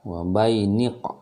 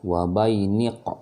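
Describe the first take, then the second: The two takes are said the same way.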